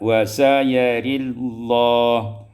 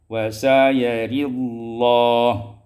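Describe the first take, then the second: Both takes have the same delivery.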